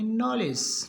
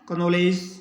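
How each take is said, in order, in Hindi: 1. शब्द n ध्वनि से शुरू होता है। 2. शब्द k ध्वनि से शुरू होता है। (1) "के का उच्चारण नहीं होगा" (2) "ये सब गलत है"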